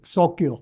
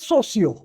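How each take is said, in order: First: The middle consonant is a k sound. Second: The middle consonant is an s sound. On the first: This is the name's original pronunciation. "हम इसका name था सोक्यो" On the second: This is how people in the region started saying it. "People in Gujarat every one day started pronouncing as सोसियो"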